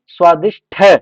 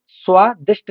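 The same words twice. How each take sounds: First: स्वादिष्ट louder, ending "shtha"; aspirated ending. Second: स्वादिष्ट ending on a plain "sht"; unaspirated ending. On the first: Teacher giving the correction, स्वादिष्ट with aspirated "tha". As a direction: release स्वादिष्ट on a breath-puffed ठ. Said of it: "स्वादिष्ट नहीं, स्वादिष्ट". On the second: Teacher showing students the error, स्वादिष्ट with unaspirated "t". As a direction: finish स्वादिष्ट on ट with no puff. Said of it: "स्वादिष्ट नहीं". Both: Shown as a demonstration.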